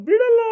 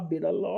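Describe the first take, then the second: First: High, loud shout of ಬಿಡಲ್ಲ; shouted refusal. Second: Said in the usual way. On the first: Acted. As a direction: yell ಬಿಡಲ್ಲ as a final no. Refusing to release the son. (ಬಿಡಲ್ಲ ಎಂದು ಜೋರಾಗಿ ಕೂಗುವುದು)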